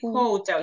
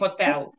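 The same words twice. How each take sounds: First: The first vowel is an O sound. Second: The first vowel is not an O sound. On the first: The speaker calls it right. "we say hotel. Через O" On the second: The speaker calls it wrong. "we don't say hotel"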